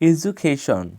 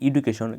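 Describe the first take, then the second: First: The middle consonant is a j sound. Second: The middle consonant is a plain d sound. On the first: The speaker calls it right. "সঠিক উচ্চারণ হবে এজুকেশন" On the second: The speaker calls it wrong. "এটা আমরা সবাই বলে থাকি"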